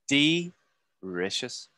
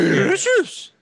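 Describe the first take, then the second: First: It is said in a normal voice. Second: It is said in a Scooby-Doo voice.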